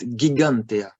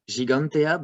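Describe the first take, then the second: First: The G is a hard G sound. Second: The G is a soft J-like sound. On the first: The speaker calls it right. "but it's gigantea" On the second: The speaker calls it wrong. "we would like to pronounce it"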